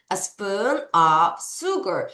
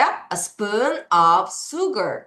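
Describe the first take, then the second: First: "a spoon of sugar" drawn out; slow teacher repeat. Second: Very slow "A spoon of sugar"; slow teacher demo; slow model reading. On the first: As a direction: repeat slowly for learners. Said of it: "다시". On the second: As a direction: read it slowly word by word. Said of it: "어떻게 한다고요". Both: Shown as a demonstration.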